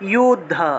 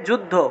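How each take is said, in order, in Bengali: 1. শব্দটি y ধ্বনি দিয়ে শুরু হয়। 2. শব্দটি j ধ্বনি দিয়ে শুরু হয়। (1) "কিন্তু সংস্কৃতে কি উচ্চারণ করব" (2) "বাংলায় বললে যুদ্ধ"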